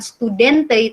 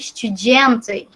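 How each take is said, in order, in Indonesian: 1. Bunyi d diucapkan sebagai d keras biasa. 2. Bunyi d dilembutkan, terdengar mirip j. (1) "bukan studente" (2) "kalau d bertemu dengan e itu dibacanya seperti kayak j"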